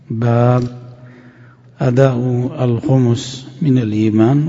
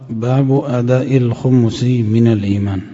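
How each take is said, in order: First: There is a pause after the first word. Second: The first word runs straight into the next. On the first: "وجها ثالثا وهو الوقف" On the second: "والوجه الآخر"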